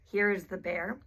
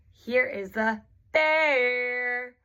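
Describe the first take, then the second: First: Said in the usual way. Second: "bear" stretched long, swooping up and then down; rise-fall on BEAR. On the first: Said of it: "So instead of saying". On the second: Shown as a demonstration. Therapist changing intonation to highlight a word, "bear" long, up then down. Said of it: "goes up and then down".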